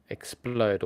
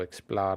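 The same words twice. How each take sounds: First: "explode" with a long O, as in load; alternative pronunciation. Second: Second "explode" said like "ex-plowd"; alternative pronunciation. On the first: Streamer unsure of a Pokémon name, tentative long-O pronunciation of "explode". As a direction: try "explode" rhyming with road, drawn out. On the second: Streamer unsure of a Pokémon name, alternative OW pronunciation of "explode". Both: Shown as a demonstration. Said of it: "I don't know how you pronounce it".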